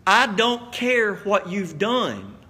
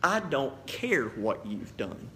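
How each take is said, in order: First: Slow and firm, every word of "I don't care what you've done" weighted; firm emphasis. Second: Soft, slow and tender, reassuring the listener; loving tone. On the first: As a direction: look them in the eye and plant each word. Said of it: "look at me". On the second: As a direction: say it gently, like forgiving a friend. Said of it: "in the most loving tone I can to you". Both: Real, not acted.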